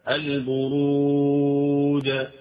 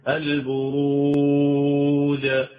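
No difference in how they are said.

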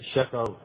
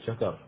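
First: The sh sound is spread with audible airflow. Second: The sh sound is pushed toward a j sound. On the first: The speaker calls it right. "لازم أن يقول شكر" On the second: The speaker calls it wrong. "لا يأتي بالتبشي مثلا فيجعلها قريبا من الجيم"

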